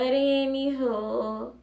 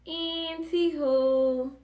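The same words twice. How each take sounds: First: Anywho drawn out slowly on a rising tune; sing-song anywho. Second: Anywho pitched much higher and very slow in a put-on voice; higher sing-song anywho. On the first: Acted. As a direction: stretch anywho into a slow playful rise. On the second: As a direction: sing anywho up high like a playful cue.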